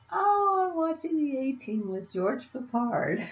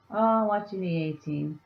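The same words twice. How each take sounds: First: High giggly delivery, pitch jumping up; laughing. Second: Said in the usual way. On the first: Retold or imitated. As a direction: giggle it out, much higher. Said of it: "That was so funny".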